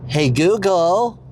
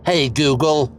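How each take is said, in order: First: Drawn-out attempt at an American accent; slow American-accented call. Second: A firm, measured command; said like someone in charge; with authority. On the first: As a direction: put on an American accent, rising at the end. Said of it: "say it in an American accent". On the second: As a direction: address the assistant with authority. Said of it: "say it with authority". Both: Shown as a demonstration.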